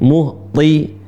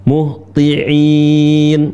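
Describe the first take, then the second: First: "Muhti-" cut off mid-word to isolate the sound; broken-off syllable. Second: "muhti'in" said whole, with a clear glottal catch before the long "in"; full word drilled. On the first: Teacher isolating the syllable "Muhti-" for students. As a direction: stop short on "Muhti-" as a drill. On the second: Teacher completing "muhti'in" after the broken syllable. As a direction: finish "muhti'in" cleanly. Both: Shown as a demonstration. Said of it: "kemudian ikutin".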